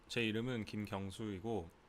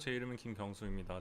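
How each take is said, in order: First: It is said in a posh, refined voice. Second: It is said in a plain, everyday voice.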